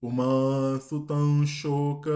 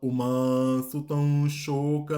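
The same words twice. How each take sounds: No difference in how they are said.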